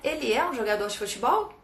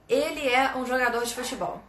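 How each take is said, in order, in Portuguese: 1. A voz sobe no final. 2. A voz desce no final. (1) "A entonação sobe" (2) "essa mesma frase"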